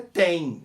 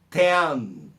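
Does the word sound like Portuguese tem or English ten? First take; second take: Portuguese tem; English ten. First: It sounds like the Portuguese word tem. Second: It sounds like the English word ten. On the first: The speaker calls it wrong. "Tem é a pronúncia da palavra, do verbo ter" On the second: The speaker calls it right. "não tem, é ten"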